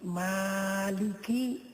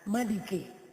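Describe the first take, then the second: First: The first vowel is held long. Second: The first vowel is cut short. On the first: "semestinya dibaca panjang" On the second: "dibaca pendek"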